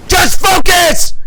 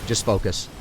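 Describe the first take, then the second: First: High, loud, slow yell; shouted command to himself. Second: Low murmured reminder to himself; calm yourself under your breath; quiet self-talk. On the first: Streamer yelling at himself in the final push, shouting. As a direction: roar it to lock in. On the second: Streamer coaching himself mid-fight, quietly. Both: Real, not acted.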